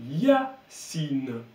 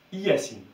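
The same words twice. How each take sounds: First: "Yacine" in two slow beats, stretched glide on Ya, then cine. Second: "Yacine" said as ee-ya-seen, separate i first; Y read as I. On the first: Teacher sounding out the correct name, Y glide. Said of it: "je le dis Y, ça va faire Ya". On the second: Teacher showing the mistaken name, i-ya-cine. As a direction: start "Yacine" on a full vowel i, three syllables. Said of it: "je le disais I". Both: Shown as a demonstration.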